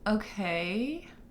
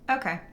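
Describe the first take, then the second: First: It is said in a questioning tone. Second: It is said in a firm, closed tone. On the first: The speaker is asking a question. "question mark" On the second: The speaker is not open to suggestions. "very closed response"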